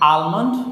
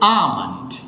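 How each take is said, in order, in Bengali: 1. এই শব্দে L-এর ধ্বনি উচ্চারণ করা হয়। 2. এই শব্দ থেকে L-এর ধ্বনিটি বাদ যায়। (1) "সবগুলো উচ্চারণ ভুল" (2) "এটা উচ্চারণ হচ্ছে আমন্ড"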